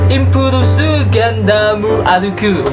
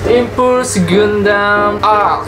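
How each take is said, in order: First: The name is said with Japanese-style added vowels. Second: The name is said with English-like sounds.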